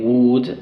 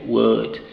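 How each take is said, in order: First: Would said with a long oo; wrong oo vowel. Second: Would said with a short uh; right short vowel. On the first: Teacher showing the wrong vowel in would. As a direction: round the lips on would. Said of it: "Instead of saying would". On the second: Teacher modelling the correct would. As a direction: relax the mouth on would. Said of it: "I say would". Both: Shown as a demonstration.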